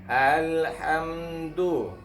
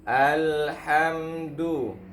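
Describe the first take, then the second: The two takes are said the same way.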